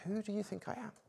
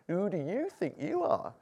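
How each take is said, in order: First: It is said in a sincere tone. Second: It is said in a mocking tone.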